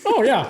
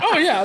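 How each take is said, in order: First: Said in the usual way. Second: High, hammed-up imitation of calm; mock casual. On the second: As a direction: mimic his unbothered reply. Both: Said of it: "He's like".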